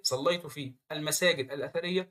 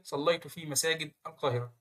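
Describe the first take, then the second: First: صليت في المساجد الأثرية read with المساجد leaned on; المساجد said with clear weight on the al-; definite article stressed. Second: صليت في مساجد القاهرة with مساجد leaned on; مساجد said firmly, flowing into القاهرة; construct phrase read. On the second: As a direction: stress مساجد before القاهرة. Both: Shown as a demonstration. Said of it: "إيه الفرق".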